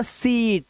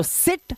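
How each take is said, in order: First: सीट with a stretched ee; long vowel. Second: सिट with a brief i, higher; short vowel. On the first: Teacher contrasting two words, long vowel in सीट. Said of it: "सीट long vowel sound का". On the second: Teacher contrasting two words, short vowel in सिट. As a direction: keep सिट short and quick. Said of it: "सिट example है short vowel sound का". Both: Shown as a demonstration.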